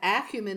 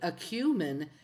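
First: It uses the British stress pattern. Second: It uses the American stress pattern. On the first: "acumen is the British pronunciation" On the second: "supposedly acumen is the American pronunciation"

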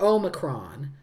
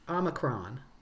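First: It is said the British way, with 'my'. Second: It is said the American way. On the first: "British is much more Omicron" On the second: "Which is more American"

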